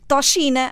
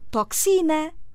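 First: The x is pronounced as sh. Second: The x is pronounced as ks. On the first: The speaker calls it wrong. "Não digo toxina" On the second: The speaker calls it right. "pronunciam-se que se"

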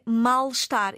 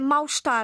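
First: The first part ends in an L sound. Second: The first part ends in a U sound. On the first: The speaker calls it right. "A forma correta é mal-estar" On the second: The speaker calls it wrong. "O segundo erro é mal-estar"

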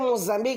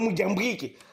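First: The middle s-sound is crisp and clear. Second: The middle s-sound is lisped and airy. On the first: The speaker calls it right. "Para dizer Moçambique" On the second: The speaker calls it wrong. "vai dizer Moçambique"

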